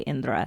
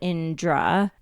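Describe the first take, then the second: First: The name is said with native Hindi sounds. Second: The name is said with a J-like sound. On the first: "if you're like a native Hindi speaker or you've been around like Indian accents your whole life, you should be able to say Indra" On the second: "Like the J is the part"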